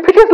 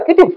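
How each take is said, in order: First: ফিটিস said with an f sound at the start; wrong pronunciation. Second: কিটিস said with a k sound at the start; correct pronunciation. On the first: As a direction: say ফিটিস with f, the mistaken way. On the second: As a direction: say কিটিস with a clear k, the right way. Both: Shown as a demonstration. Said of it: "কিন্তু এটা ফিটিস নয়".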